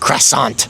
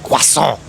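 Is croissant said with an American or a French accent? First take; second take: American; French. First: It is said with an American English pronunciation. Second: It is said with a French pronunciation. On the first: This is how the locals say it. "not croissant" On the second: This is the pronunciation of the word's home country. "a French person coming to America and saying it's pronounced croissant"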